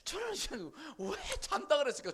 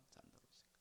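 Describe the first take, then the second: First: Higher, louder, stress on 잔다; emphatic question. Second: 잔다 그랬을까 whispered without voice; whispered repeat. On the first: Preacher asking the congregation, loud emphatic question. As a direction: ask 왜 잔다 그랬을까 with 잔다 ringing out high and loud. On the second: Preacher repeating to the congregation, whispered. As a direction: drop 잔다 그랬을까 to a breathy whisper. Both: Shown as a demonstration.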